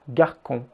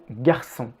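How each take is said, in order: First: The middle consonant sounds like a K. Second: The middle consonant sounds like an S. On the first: "Sans la cédille, le mot sonnerait comme garcon" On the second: "force le C à se prononcer comme un S"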